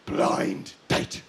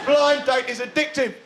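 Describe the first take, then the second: First: Very low, hushed title drop; mock-solemn reveal. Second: Said in the usual way. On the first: Comic naming the top participation show, mock-solemn. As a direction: sink deep for a dramatic unveiling.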